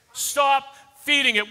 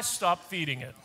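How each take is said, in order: First: "Stop feeding it" louder and higher; forceful repeat. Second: "stop feeding it" dropped low and soft. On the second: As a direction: say "stop feeding it" quietly, almost to yourself. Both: Shown as a demonstration.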